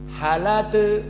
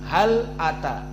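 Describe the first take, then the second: First: The l links straight into the vowel, no stop. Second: The l closes and a glottal stop starts ata. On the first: "hamzahnya dihilangkan, harokat a dipindahkan" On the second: "lamnya sukun"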